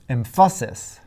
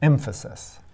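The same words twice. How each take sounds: First: The stress falls on a later syllable. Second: The stress falls on the first syllable. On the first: The speaker calls it wrong. "Still not right" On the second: The speaker calls it right. "The first syllable is stressed"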